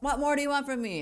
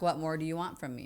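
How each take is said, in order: First: It is asked in an exasperated, annoyed tone. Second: It is asked in a sincere, genuine tone. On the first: The speaker is fed up and complaining. The speaker calls it wrong. "Not like" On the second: The speaker truly wants to know what is needed. The speaker calls it right. "in a real way"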